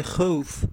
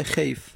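First: خوف with an "ow" glide, "khowf"; vav in the middle. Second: خیف with an "ey" glide, "kheyf"; ya in the middle. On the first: Teacher testing vav as the middle letter, خوف pronounced "khowf". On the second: Teacher testing ya as the middle letter, خیف pronounced "kheyf". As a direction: say خیف as "kheyf", gliding towards i. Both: Shown as a demonstration.

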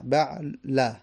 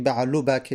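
First: Slow "بعل" ending on a short a; آهسته، بعلَ با فتحه; correct fatha demo. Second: "بعلو بک" with -u on "بعلو", the wrong way; تلفظ نادرست بعلو; wrong vowel demo. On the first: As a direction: draw "بعل" out, closing on fatha. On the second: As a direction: say "بعلو" as the mistake to avoid. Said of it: "نه، بعل". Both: Shown as a demonstration.

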